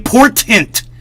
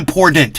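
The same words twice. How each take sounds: First: The T sounds are clearly pronounced, including the final one. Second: The middle T is a D and the end T is dropped. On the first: The speaker calls it right. "It's important. Fucking say it right" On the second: The speaker calls it wrong. "The word is not important. That word does not exist. I M P O R D E N T isn't a fucking word"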